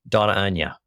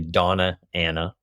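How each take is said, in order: First: The name is said with a Spanish 'ny' sound. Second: The name is said with a plain English 'n'.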